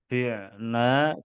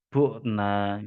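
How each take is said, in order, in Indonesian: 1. Vokal pertama adalah 'i' depan. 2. Vokal pertama adalah 'u' yang dibulatkan. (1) "Tidak boleh diucapkan" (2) "bisa menjadi"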